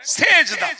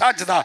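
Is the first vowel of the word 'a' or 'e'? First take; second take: e; a. First: The first vowel sounds like 'e'. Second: The first vowel sounds like 'a'. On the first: This is the common everyday pronunciation. The speaker calls it wrong. "আমরা যারা কি বলি, এই বলেন বলেন সেজদা" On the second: This is the correct pronunciation. The speaker calls it right. "সিনে জবর দিয়ে বলতে হয় সাজদা"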